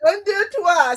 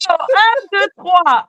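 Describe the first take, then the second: First: Un, deux, trois echoed with an American ear; copying the French count. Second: Un, deux, trois with a French lilt, careful; French counting demo. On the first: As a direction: try un, deux, trois after the teacher. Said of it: "See, that's it". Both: Shown as a demonstration.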